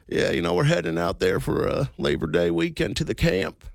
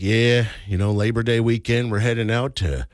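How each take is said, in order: First: It is said in a strong put-on voice. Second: It is said in a mild put-on voice.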